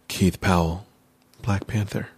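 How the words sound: It is said in a grave, weighty way.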